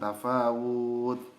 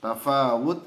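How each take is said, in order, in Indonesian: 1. Vokalnya dibaca panjang. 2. Vokalnya dibaca pendek. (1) "dibaca panjang" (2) "harusnya pendek"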